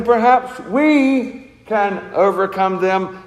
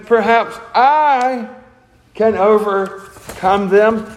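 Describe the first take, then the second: First: "we" leaned on, whole phrase slow; "we" stressed, slow and measured. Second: "I" lifted high and slowed, self-reliant; "I" sung out high and drawn long, can overcome them slow; stress on I. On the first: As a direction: put the weight on "we", teamwork pride. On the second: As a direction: lean on "I" in "Perhaps I can overcome them" as if it all hangs on you. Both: Retold or imitated. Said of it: "He's not saying".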